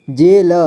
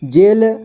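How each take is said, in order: First: जेल split as जे, ल; syllable by syllable. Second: Said in the usual way. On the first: Shown as a demonstration. Teacher showing learners जेल, sounded out in parts. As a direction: sound out जेल with a vowel after ल. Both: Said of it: "इसे पढ़ेंगे".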